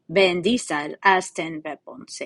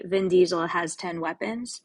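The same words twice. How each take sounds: First: "Vin Diesel has ten weapons" said slowly in a mock Russian accent; hammed-up Russian accent, slow and heavy. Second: Said in the usual way. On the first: Shown as a demonstration. Teacher shows students the mnemonic in a Russian accent. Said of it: "you have to say it in a Russian accent for it to work". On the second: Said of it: "you have to say it in a Russian accent".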